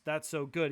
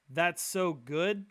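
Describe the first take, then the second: First: Said in the usual way. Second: Drawn-out slow question, rising at the end; slow quizzing question. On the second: Retold or imitated. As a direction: stretch "That's so good" slowly, like a test question. Guy quizzing God on slang.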